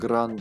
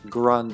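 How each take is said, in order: First: The R is pronounced as a non-English R. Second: The R is pronounced as an English R.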